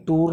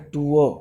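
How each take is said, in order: First: "टूर" with long oo and an R at the end; wrong sounded R. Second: "टूअर" as too-uh, without the R; correct silent R. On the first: Teacher warning students how not to say it, sounded R. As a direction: pronounce the final R in "टूर". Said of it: "टूर नहीं बोला जाता". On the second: Teacher giving students the correct phonetic form, silent R. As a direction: end "टूअर" on an open schwa. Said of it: "इसका सही जो phonetic है". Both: Shown as a demonstration.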